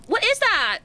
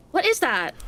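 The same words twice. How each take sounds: First: Sudden shock in the voice; startled. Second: Said in the usual way. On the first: Real, not acted. Repeat, startled, higher. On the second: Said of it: "repeated with higher pitch".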